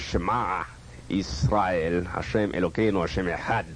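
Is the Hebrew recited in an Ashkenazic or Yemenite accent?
Yemenite. It is recited in a glottal, guttural Yemenite accent. "But I would say"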